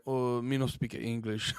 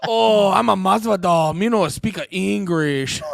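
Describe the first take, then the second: First: Soft, slow, low mock Asian accent. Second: Loud, slow, hammed-up foreign accent; Masvidal, bad mock accent. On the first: Podcaster quoting Masvidal's answer to the cops, mock Asian accent. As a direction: mumble slowly in a botched Asian accent. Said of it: "did an Asian accent". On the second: Podcaster retrying Masvidal's answer to the cops, hammed-up accent. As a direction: belt it out in a badly faked accent, stretching the words. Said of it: "I'm not good at 'em".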